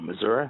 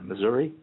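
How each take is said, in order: First: Missouri is said the way locals say it. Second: Missouri is said the speaker's own usual way.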